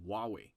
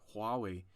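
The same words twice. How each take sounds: First: The initial H sound is left out. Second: The initial H sound is clearly pronounced. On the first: The speaker calls it wrong. "instead of Huawei" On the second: The speaker calls it right. "we should pronounce as Hua, Hua, Huawei"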